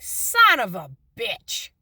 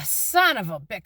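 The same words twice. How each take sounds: First: Slow, drawn-out dawning curse; a mild mock groan of realization. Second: Said in the usual way. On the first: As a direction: let it sink in as you say it, slowly. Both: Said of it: "it hit me and I'm like".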